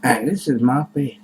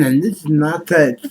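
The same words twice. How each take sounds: First: Said in the usual way. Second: Talking with tongue stuck out. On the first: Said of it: "I keep talking with my tongue out". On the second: Shown as a demonstration. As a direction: say it with your tongue out. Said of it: "talking with my tongue out".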